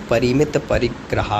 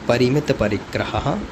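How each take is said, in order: The two takes are said the same way.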